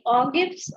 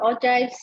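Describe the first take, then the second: First: "ogives" said with a hard g, as in give; hard-g pronunciation. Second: "ogives" said with a j sound, like oh-jives; soft-g pronunciation. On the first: Teacher unsure how the term is pronounced, hard-g variant. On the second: Teacher offering the other pronunciation, soft-g variant. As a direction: say "ogives" slowly, rhyming its end with hives. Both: Shown as a demonstration. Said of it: "I don't know how it is pronounced".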